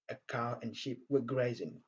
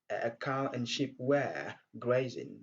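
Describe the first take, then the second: First: The word 'were' is said in short weak form. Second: The word 'were' is said in full form. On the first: "j'ai utilisé la forme courte, la forme faible de were" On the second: "au lieu de dire"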